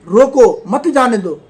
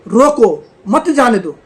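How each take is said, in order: The two takes are said the same way.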